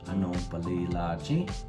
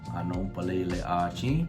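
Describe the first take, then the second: First: The first vowel is dropped, joining the words. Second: Both vowels are kept, with the words apart. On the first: The speaker calls it right. "drop the last vowel sound ... it will sound like" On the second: The speaker calls it wrong. "it sounds a little weird if you say anopalele achi"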